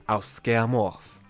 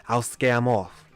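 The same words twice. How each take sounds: The two takes are said the same way.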